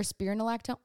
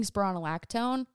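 First: "spironolactone" offered as the other possible pronunciation; alternative pronunciation attempt. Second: "spironolactone" offered as one possible pronunciation; first pronunciation attempt. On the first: Vlogger unsure of her medication's name, alternative pronunciation attempt. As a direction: say "spironolactone" as a second, differing guess. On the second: Vlogger unsure of her medication's name, first pronunciation attempt. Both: Shown as a demonstration. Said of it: "however the hell you dis-, uh, pronounce it".

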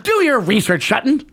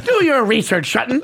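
First: Ken Brockman quote. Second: Lightly voiced newsman, stretched DO; a hint of the anchor's delivery on "Do"; Ken Brockman imitation. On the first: Retold or imitated. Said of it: "And he goes". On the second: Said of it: "This is the way he says it".

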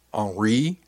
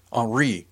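First: HENRI as a question, drawn to a rise. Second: Sudden recall, falling at the end; exclaiming. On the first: Crewmate checking the name Henri, questioning with a rise. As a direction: ask "Henri" with a rising end. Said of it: "Brillo asked". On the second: Remembering the friend's name, exclaiming. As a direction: exclaim the name as it comes back. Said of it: "I exclaimed". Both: A narrator's reading.

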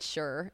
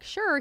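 First: Soft, understated reply; softly retold, half-committed answer; low-key agreement. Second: High-pitched doubtful echo; mock-doubting, pitched way up; skeptical echo. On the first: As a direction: imitate a noncommittal yes, quietly. Retells his low-key agreement. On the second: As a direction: throw it back in a much higher voice. Echoes his answer back doubtfully.

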